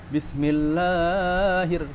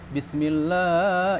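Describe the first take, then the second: First: The long vowel is held for a short time. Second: The long vowel is held about twice as long. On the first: The speaker calls it right. "Mat itu sebenarnya cuma dua harokat" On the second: The speaker calls it wrong. "ini ada empat ini, nggak boleh"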